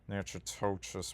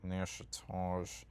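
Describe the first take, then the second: First: The name is sounded out close to its spelling. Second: The name is said in a different, local form. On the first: This is how the speaker used to say it. The speaker calls it wrong. "I used I used to always pronounce it" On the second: This is how the name is actually said. The speaker calls it right. "but it's like pronounced like"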